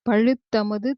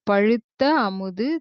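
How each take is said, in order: First: The two words are run together as one. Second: The two words are said separately.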